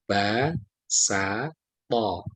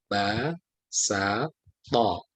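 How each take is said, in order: No difference in how they are said.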